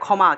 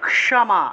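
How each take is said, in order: First: The first consonant is one merged sound. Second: The first consonant is k followed by sh. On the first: This is the Bengali pronunciation. "বাংলায় বললে" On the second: This is the Sanskrit pronunciation. "ক এবং মূর্ধন্যস্য উচ্চারণ হবে একসাথে"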